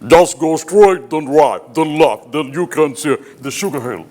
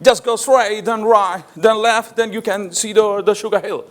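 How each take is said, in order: First: The voice comes deep from the throat. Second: The voice is placed forward, toward the palate. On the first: "ഈ ബ്ലാക്സ് ഉപയോഗിക്കുന്നത് ഖണ്ഡ്യമാണ്, തൊണ്ട മാത്രമാണ്" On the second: "ഈ മൂർധന്യം വെച്ചാണ് സംസാരിച്ചത്, ഈ വൈറ്റ്"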